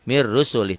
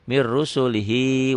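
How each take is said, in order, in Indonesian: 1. Frasa ini berhenti begitu saja tanpa 'hi' di akhir. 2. Frasa ini berakhir dengan suku kata 'hi' yang pendek. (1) "Kalau dihentikan dibacanya jadi pendek" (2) "kalau disambung diteruskan mir rusulihi wa qalu"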